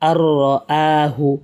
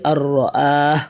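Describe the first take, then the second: First: The word ends with a short vowel sound. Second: The word ends on a bare consonant. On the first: The reading continues without stopping. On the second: The reader stops at this word.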